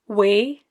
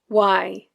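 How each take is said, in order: First: The vowel is one steady sound. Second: The vowel glides like the word 'eye'. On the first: "In Scottish Standard English, the word way ends in a monophthong" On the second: "In Scots, ... it often changes to I"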